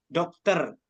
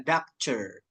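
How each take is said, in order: First: Said in the usual way. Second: "doctor" as DAK-cher; T read nearly as CH. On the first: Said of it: "di sini adalah". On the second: Shown as a demonstration. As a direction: model "doctor" with T sliding into CH. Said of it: "ada yang dibaca C juga". ("doctor" dibaca agak dak-cer)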